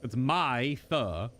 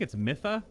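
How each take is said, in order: First: Mytha said slowly as "MY-thuh"; long-i pronunciation. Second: Mytha said "MITH-uh"; short-i pronunciation. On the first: Streamer settling on a name, Mytha slowly as "MY-thuh". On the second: Streamer unsure of a name, trying Mytha as "MITH-uh". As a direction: say Mytha with a short i, as in myth, questioning. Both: Shown as a demonstration. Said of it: "I don't know how to pronounce that".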